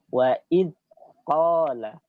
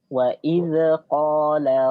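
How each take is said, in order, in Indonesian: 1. Konsonan ditahan dengan aliran udara yang benar-benar terhenti. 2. Konsonan dilepaskan dengan pantulan. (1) "dengan ditahan aliran suaranya" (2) "itu pantulan namanya, tidak boleh"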